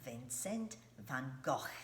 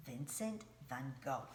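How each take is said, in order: First: "Vincent van Gogh" said the Dutch way, "Gogh" ending in an open "aw" vowel; Dutch pronunciation. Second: "Vincent van Gogh" with "Gogh" rhyming with "go"; American pronunciation. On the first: Teacher showing children how the Dutch say "Vincent van Gogh". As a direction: pronounce "Gogh" as the Dutch do, not like "go". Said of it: "That's how they say it in the Dutch language". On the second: Teacher showing children the American way to say "Vincent van Gogh". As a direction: say "Gogh" exactly like the word "go". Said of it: "in America, we say".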